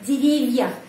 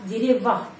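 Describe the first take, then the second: First: The v sound is soft, palatalized. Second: The v sound is hard, not palatalized. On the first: "Tapi kalau ada tanda pelemah, V menjadi lemah juga" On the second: "Kalau tidak ada tanda pelemah di sini jadi деревах, V keras"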